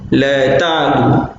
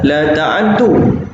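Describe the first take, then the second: First: The ain is silent and the d is single. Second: The ain takes a vowel and the d is doubled. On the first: This is the reading of most reciters. "bi iskanil 'ain wa takhfifud dal" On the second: This is the reading of one reciter. "bi fathil 'ain wa tashdidud dal"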